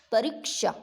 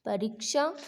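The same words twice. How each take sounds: First: परीक्षा with a held "ree"; long ī in परीक्षा. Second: परीक्षा with a short "ri", rising. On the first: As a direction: lengthen the second vowel of परीक्षा to "ee". (परीक्षा में बड़ी ई की मात्रा) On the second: (परीक्षा में छोटी इ, गलत उच्चारण) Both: Shown as a demonstration. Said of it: "तो बड़ी की मात्रा ही आती है".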